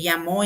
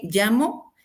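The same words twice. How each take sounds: First: "llamó" stressed on the final syllable, lla-MÓ; past-tense stress. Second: "llamo" stressed on the first syllable, LLA-mo; present-tense stress. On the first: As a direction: land the stress on the last o of "llamó". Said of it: "llamó es en pasado". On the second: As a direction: stress LLA in "llamo", leaving the final o unaccented. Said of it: "Es en presente y llamó es en pasado". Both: Shown as a demonstration.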